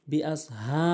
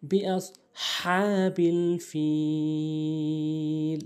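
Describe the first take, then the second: First: হা as a light, short plain h; small ha mistake. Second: বিআস হা বিল ফিল, হা from mid-throat, long drawn; correct big ha. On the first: Teacher showing most people's mistake, light হা. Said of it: "ছোট হা এনে উচ্চারণ করে". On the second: Teacher modelling the correction, throaty stretched হা. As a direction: chant slowly with a strong throaty হা. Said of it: "বড় হা এনে হলকের মাঝখান থেকে". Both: Shown as a demonstration.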